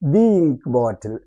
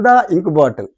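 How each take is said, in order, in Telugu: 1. 'The' ను దీర్ఘ 'ee' అచ్చుతో పలుకుతారు. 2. 'The' ను హ్రస్వ 'uh' అచ్చుతో పలుకుతారు. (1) "ది వాడాలి" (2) "నో, రాంగ్. అట్లా అనకూడదు"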